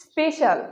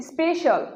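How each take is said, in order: First: স্পেশাল with a short 'e', 'spe-shal'; common mispronunciation. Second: স্পেশাল with a longer first vowel, 'spei-shal'; corrected pronunciation. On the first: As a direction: say স্পেশাল as Bengalis usually do. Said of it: "ভুল উচ্চারণ". (স্পেশাল-এর ভুল উচ্চারণ) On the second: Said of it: "এটার সঠিক উচ্চারণ হচ্ছে". (স্পেশাল-এর শুদ্ধ উচ্চারণ) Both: Shown as a demonstration.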